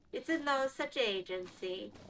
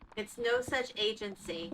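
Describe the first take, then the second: First: It is said in a put-on Italian accent. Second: It is said in the speaker's usual accent.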